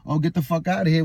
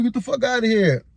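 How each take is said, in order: First: Said in the usual way. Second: Mock angry dismissal. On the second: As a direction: throw "Get the fuck outta here" back in a raised voice. Mocking her dismissive outburst.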